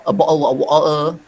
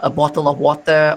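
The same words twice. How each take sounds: First: Cockney, with the t's dropped to glottal stops; Cockney swallowed t's; Cockney accent. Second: Said in the usual way. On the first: Shown as a demonstration. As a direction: demonstrate a Cockney glottal "bottle of water". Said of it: "that is a Cockney accent".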